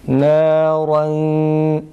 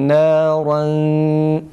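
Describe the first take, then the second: No difference in how they are said.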